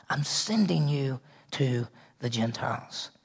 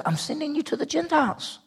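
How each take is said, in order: First: Lower, much softer, slower repeat; hushed slow restatement; soft echo. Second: Much higher ringing declaration; high proclaiming take; emphatic proclamation. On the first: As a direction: let it settle in quietly. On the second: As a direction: lift it up like a proclamation. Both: Acted. Repeats commission line twice.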